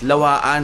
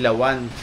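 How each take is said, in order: First: The 'a' vowel is drawn out long. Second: The 'a' vowel is said short. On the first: The speaker calls it right. "ang tamang pronunciation pala guys" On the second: The speaker calls it wrong. "hindi lawan"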